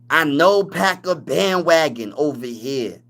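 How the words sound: It is said in a put-on, imitated voice.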